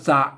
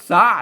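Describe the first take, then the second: First: The syllable is said with a low tone. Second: The syllable is said with a rising tone. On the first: This is the Thai reading. "อ่านว่าสะเสียงเอก" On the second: This is the Lanna reading. "เสียงจัตวาภาษาละนาบนออกจัตวา"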